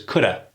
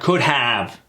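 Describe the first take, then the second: First: The words blend, with 'have' reduced to 'a'. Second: Both words are pronounced fully and separately. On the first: The speaker calls it right. "versus coulda" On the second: The speaker calls it wrong. "When we say it properly, it takes too much effort"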